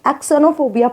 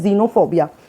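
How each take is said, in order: First: The word begins with an eks sound. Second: The word begins with a z sound. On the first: The speaker calls it wrong. "तो हम तो इसको क्या पढ़ते, एक्सनोफोबिया पढ़ते" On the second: The speaker calls it right. "अब इसको हम पढ़ते हैं जीनोफोबिया"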